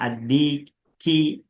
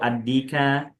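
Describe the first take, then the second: First: The word ends with an i vowel. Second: The word ends with an a vowel. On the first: "jangan dikasrokan" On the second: "jangan kita baca fathah dulu"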